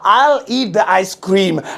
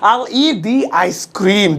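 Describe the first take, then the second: First: 'The' is said with a short 'thuh' vowel. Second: 'The' is said with a long 'thee' vowel. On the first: The speaker calls it wrong. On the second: The speaker calls it right.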